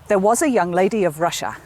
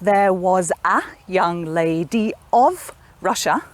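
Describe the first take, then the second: First: The words 'a' and 'of' reduce to schwa. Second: The words 'a' and 'of' keep full vowels. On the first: The speaker calls it right. "A and of are not stressed and they just become a schwa sound" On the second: The speaker calls it wrong. "instead of"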